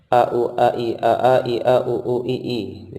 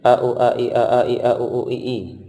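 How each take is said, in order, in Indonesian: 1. Urutan ini dibaca dengan tempo cepat. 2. Urutan ini dibaca dengan tempo lebih cepat. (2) "Dipercepat lagi"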